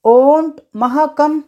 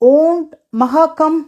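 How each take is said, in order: First: The negative is said as one contracted word. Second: The same.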